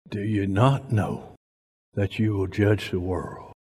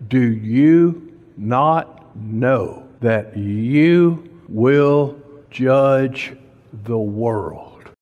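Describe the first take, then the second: First: Soft, low rereading of the verse; quiet repeat. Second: Every word drawn out and weighed; slow emphasis. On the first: Preacher repeating the verse to the church, softer. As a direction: let it sink in softly. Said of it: "repeated quietly". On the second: Preacher pressing a verse on the church, slow and weighty. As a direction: lean on each word, very slow. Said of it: "slow emphatic scripture delivery". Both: Acted.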